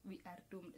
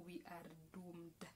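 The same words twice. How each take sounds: First: Quiet, resigned we are doomed; softer repeat. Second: Hushed, breathy dread on we are doomed; whispered doom. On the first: Repeating the grim verdict to viewers, quietly resigned. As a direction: let it sink in, low and soft. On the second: Telling viewers Kenya cannot cope, in a whisper. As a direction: whisper it like a grim secret. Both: Pretend.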